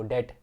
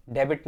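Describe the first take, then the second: First: "डेट" said det, b dropped; silent b. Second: "डेबिट" with the b sounded; wrong pronunciation. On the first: Teacher repeats the correct reading for students, silent b. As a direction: leave the b out of "डेट". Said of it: "डेट पढ़ो". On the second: Teacher shows students what not to read, sounded b. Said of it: "डेबिट नहीं पढ़ो". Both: Shown as a demonstration.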